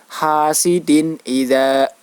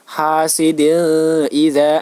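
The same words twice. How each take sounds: First: The n sound is pronounced clearly and distinctly. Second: The n sound is muted and blurred. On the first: The speaker calls it right. "wajib dibaca jelas" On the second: The speaker calls it wrong. "tidak boleh dibaca samar"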